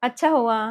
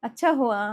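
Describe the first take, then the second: No difference in how they are said.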